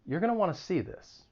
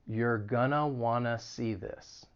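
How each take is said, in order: First: It is spoken at a normal, quick pace. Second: It is spoken slowly and deliberately. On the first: "and then I'll say it again at a normal speed" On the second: "then I'll say it slowly"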